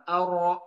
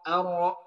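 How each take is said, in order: No difference in how they are said.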